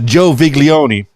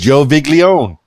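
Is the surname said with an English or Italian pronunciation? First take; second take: Italian; English. First: The surname is said with an Italian pronunciation. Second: The surname is said with an English pronunciation. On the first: "I wanted to put the the Italian emphasis on it" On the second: "or maybe it's"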